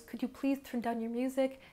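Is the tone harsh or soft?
soft. It is said in a soft, kind tone.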